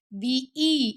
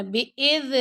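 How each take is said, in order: First: بی ای with a clear ee; correct kasra. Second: بے اذ with ay vowels; wrong kasra. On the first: Teacher showing students the right vowel, بی ای with ee. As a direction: say بی ای as bee-ee. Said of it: "ای پڑھنا". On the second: Teacher showing students the mistake, بے اذ with ay. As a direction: say بے اذ as bay-ez. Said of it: "بے اذ نہیں پڑھنا". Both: Shown as a demonstration.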